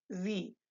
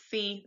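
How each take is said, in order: First: Z said as 'zee', the German word sie; German voiced S. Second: Sie said as 'see', the mistaken way; English hissed S. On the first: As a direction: buzz the start of Z as in zoo. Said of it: "like the Z in zoo". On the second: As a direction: start sie with a sharp S. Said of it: "not sie". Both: Shown as a demonstration.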